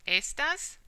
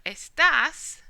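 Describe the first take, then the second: First: "estas" as ES-tas, higher pitch with a rising end; stress on first syllable. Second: "estás" as es-TAS, the second syllable loud and drawn out; stress on last syllable. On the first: Teacher repeating the word for these, stressed on the first syllable. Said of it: "the natural stress is here". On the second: Teacher contrasting it as you are, stressed on the last syllable. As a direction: punch the final syllable of "estás". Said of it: "spelt the same except for the accent". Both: Shown as a demonstration.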